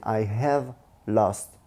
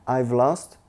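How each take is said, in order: First: The word have is said in full. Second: The word have is shortened to a v sound. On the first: The complete form of the phrase. "c'est I have lost" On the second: A quicker everyday way of saying it. "on mange en fait le H A"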